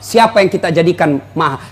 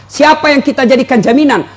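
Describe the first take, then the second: First: Said in the usual way. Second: Siapa pushed up higher and harder; challenging the congregation, pitch climbing on Siapa; raised rhetorical question. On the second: Shown as a demonstration. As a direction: lift the second asking, press on Siapa. Preacher repeats rhetorical question, raised.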